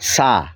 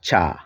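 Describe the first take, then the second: First: The word begins with an s sound. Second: The word begins with a ch sound. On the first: "Sylheti ভাষায় এটা" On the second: "বাংলায় আমরা বলবো"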